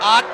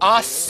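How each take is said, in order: First: The word ends without an s sound. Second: The word ends with an s sound. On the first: It means art. The speaker calls it right. "ต้องออกเสียง, art" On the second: It sounds like a word meaning butt. The speaker calls it wrong. "สอเสือมันคือก้นนะครับ"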